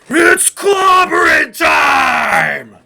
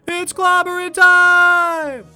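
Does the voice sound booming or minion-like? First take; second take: booming; minion-like. First: It is said in a big booming voice. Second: It is said in a weak, minion-like voice.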